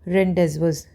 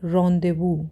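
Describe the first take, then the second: First: The z and final s sounds are pronounced. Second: The z and final s sounds are silent. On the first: The speaker calls it wrong. "दिख तो ये रहा है" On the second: The speaker calls it right. "लेकिन उसको बोला क्या जाता है?"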